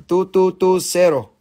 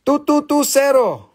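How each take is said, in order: First: Said in the usual way. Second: Number called out higher and louder. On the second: Shown as a demonstration. Seller calling the claim number higher and louder. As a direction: call it out to the room. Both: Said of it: "repeats louder".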